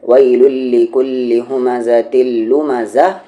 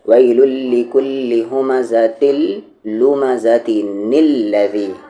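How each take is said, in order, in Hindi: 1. lumazah के बाद रुकता है, फिर alladhi पढ़ता है। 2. बिना रुके आगे बढ़ता है, साथ में एक नून जुड़ जाता है। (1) "वहाँ पर रुकते हैं" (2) "अगर नहीं रुकेंगे तो ये अलिफ नहीं पढ़ा जाएगा"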